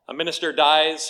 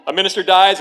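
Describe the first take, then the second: First: Said in the usual way. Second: "A minister dies" relaunched higher and much louder; loud restart. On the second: Real, not acted. Pastor restarting the joke for laughs, loud and high. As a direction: punch "A minister dies" out again, bigger. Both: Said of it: "you didn't think I was gonna start there".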